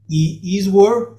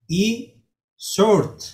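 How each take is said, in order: First: The W sound is pronounced in the name. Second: The W sound is left silent in the name. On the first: The speaker calls it wrong. "no es Eastward" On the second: The speaker calls it right. "sino que se dice E-Short, no se pronuncia la W"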